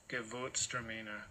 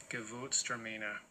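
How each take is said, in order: No difference in how they are said.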